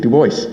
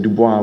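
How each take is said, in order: First: The name is said with an English pronunciation. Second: The name is said with a French pronunciation. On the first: This is the form used locally today. "we say Du Bois" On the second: This is the original form, no longer used locally. "today we don't say Dubois"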